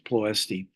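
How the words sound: The name has an English pronunciation. "it's been anglicized as"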